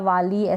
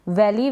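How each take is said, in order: First: The first vowel is a long ah sound. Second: The first vowel is like a in cat. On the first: The speaker calls it wrong. "वली या वाली ऐसे नहीं पढ़े" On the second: The speaker calls it right. "वैली क्या पढ़ेंगे वैली"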